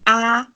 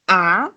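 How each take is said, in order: First: The syllable is said with the first tone. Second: The syllable is said with the second tone. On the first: "the first tone is going to be a" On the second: "the second tone is going to be a"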